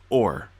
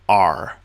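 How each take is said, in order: First: The vowel sounds like 'or'. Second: The vowel sounds like 'ar', a pirate's 'arr'. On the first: The speaker calls it right. "It's pronounced or" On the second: The speaker calls it wrong. "this would have been pronounced R. But no, we're not pirates"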